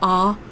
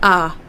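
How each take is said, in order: First: The vowel sounds darker and further back. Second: The vowel sounds brighter and further forward.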